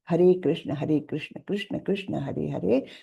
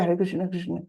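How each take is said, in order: First: Each name is pronounced clearly and separately. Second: The names are slurred and run together. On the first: The speaker calls it right. "स्पष्टता से मंत्र बोले" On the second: The speaker calls it wrong. "ये नहीं कि"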